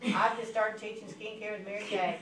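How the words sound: It is said in a flat monotone.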